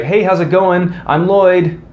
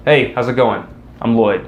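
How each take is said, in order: First: "Hey, how's it going? I'm Lloyd." with the voice pitched up and rising; a permission-seeking lift on "Lloyd"; upward inflection. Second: "Hey, how's it going? I'm Lloyd." ending down, level and falling; a settled, confident falling finish. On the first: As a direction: make "Lloyd" sound like a question. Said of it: "an upward inflection". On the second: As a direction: land "Lloyd" with a downward close. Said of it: "That's what you wanna do". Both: Shown as a demonstration.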